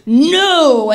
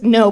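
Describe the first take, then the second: First: The word is said forcefully, with strong finality. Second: The word is said plainly, without extra force. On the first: The question must never be asked again. "but like no. Just one that said, don't be asking me that again" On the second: A simple refusal. "not just no"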